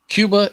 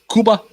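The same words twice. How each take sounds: First: Cuba is said with an English 'kyoo' sound. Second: Cuba is said with a Spanish 'koo' sound.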